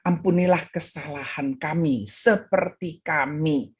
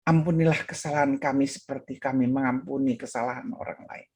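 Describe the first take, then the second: First: Faltering prayer. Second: Low, even, composed retold prayer; calm prayer. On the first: Retold or imitated. Pastor praying at the altar cannot continue, faltering. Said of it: "Dia tidak mampu meneruskannya". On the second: Pastor resumes the prayer once at peace, calm. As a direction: pray it through steadily to the end. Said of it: "sampai dia merasa tenang".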